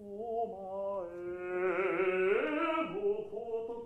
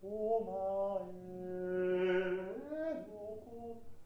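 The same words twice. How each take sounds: First: It sounds strong and a little angry. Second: It sounds soft and breathy, with a gentle tone.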